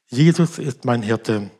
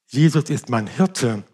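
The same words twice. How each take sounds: First: The stress falls on the word Jesus. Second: The stress falls on the word Hirte. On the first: It is this particular person who is the shepherd. "Was bedeutet er mehr?" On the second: His role is to look after and provide. "Der Hirte kümmert sich um mich und versorgt mich"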